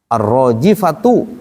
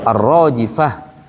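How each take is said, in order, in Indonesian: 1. Kata ini diakhiri dengan t dan vokal. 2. Kata ini diakhiri dengan bunyi h saja.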